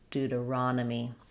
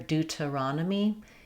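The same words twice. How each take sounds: First: The first T is a soft D-like flap. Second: The first T is a clear T sound. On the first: This is how American English says it. "In American English, Deuta" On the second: This is how other English dialects say it. "Other um, English dialects would use a T there"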